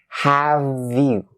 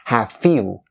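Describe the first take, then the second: First: The end of 'have' is a voiced V sound. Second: The end of 'have' is a voiceless F sound. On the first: The speaker calls it right. "when we link them all together" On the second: The speaker calls it wrong. "Don't ever turn the V sound into an F sound"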